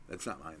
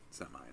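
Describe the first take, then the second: First: Said in the usual way. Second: Hushed whisper, lower and much softer; soft whispered aside. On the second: Acted. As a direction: whisper it to yourself. Repeats line as a whisper.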